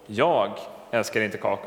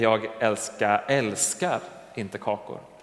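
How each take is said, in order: First: The word jag carries the stress. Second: The word älskar carries the stress. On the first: Someone else, not the speaker, loves cookies. "då kan det låta som att det är särskilt jag älskar inte kakor, men någon annan" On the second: The speaker may like cookies but does not love them. "Jag kanske gillar kakor, men jag älskar dem inte"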